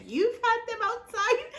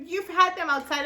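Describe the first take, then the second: First: Much higher, laughing question of disbelief; incredulous echo. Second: Said in the usual way. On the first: Retold or imitated. Echoing her sister's claim back, laughing disbelief. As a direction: repeat it back in stunned disbelief.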